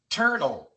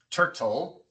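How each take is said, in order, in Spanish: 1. La T está suavizada, no es una T normal. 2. La T es una T normal y nítida. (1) "sino turtle" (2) "No decimos turtle"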